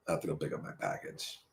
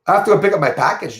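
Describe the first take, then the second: First: Very quiet, low, quick aside; barely audible low repeat; low undertone. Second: Brisk, slightly raised delivery; quick announcement. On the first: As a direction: drop right down, as if to yourself. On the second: First take of repeated announcement. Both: Real, not acted.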